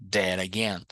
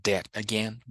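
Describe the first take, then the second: First: "that again" as "dera-gain"; flapped T. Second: "that again" with a clear t; careful "that again", t not flapped; T pronounced. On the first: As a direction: turn the T in "that" into a tapped r. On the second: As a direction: sound the T at the end of "that". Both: Shown as a demonstration. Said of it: "acostuma com os dois sons".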